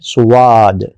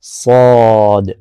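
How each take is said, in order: First: It has a rounded 'w' glide before the vowel. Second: It has a full, heavy vowel without any glide. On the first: The speaker calls it wrong. "बहुत सारे लोग कैसे कहते हैं? ... इसमें वाद नहीं कहना" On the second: The speaker calls it right. "बिल्कुल मुंह सीधा रखें और अलिफ के साथ बोलें सौद ... पुर होगी, मोटी होगी"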